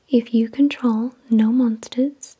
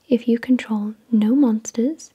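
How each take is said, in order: Both takes have the same delivery.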